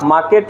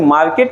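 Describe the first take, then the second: First: The r sound after the vowel is silent. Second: The r sound after the vowel is pronounced. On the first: The speaker calls it right. "मार्केट होता है" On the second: The speaker calls it wrong. "मार्केट नहीं होता"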